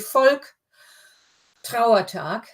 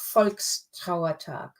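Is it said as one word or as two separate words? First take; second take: two words; one word. First: It is split into two words with a break. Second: It is joined by an s into one word. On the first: The speaker calls it wrong. "if you had it as two, it would be" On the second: The speaker calls it right. "The S means you can say it"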